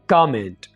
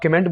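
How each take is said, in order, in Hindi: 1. पहला अक्षर खिंचा हुआ है। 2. पहला अक्षर छोटा है। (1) "थोड़ा सा का के जो साउंड है इसको खींचे" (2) "ये गलत तरीका है"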